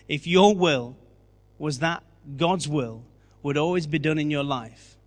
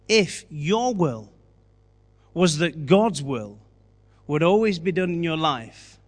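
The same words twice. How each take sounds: First: The sentence is spoken at a normal pace. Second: The sentence is spoken at a slower pace.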